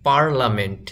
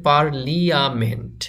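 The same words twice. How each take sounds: First: পার্লামেন্ট as PAR-la-ment; three-syllable পার্লামেন্ট, no li-a; correct pronunciation. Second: পার্লিয়ামেন্ট as par-li-a-ment; পার্লিয়ামেন্ট read syllable by syllable as written; spelling pronunciation. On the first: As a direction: say পার্লামেন্ট with the i silent. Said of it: "কিন্তু উচ্চারণ হবে". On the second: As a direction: sound out the i in পার্লিয়ামেন্ট. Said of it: "এখানে লেখা আছে". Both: Shown as a demonstration.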